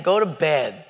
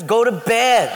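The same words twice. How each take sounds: First: Said in the usual way. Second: Higher, louder mock yell; exasperated order. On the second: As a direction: send the pest to bed, losing patience. Second, escalated refusal to roommate.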